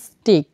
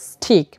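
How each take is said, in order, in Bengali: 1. t সাধারণ, এতে বাতাসের ফুৎকার নেই। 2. t এর পরে বাতাসের ফুৎকার আসে।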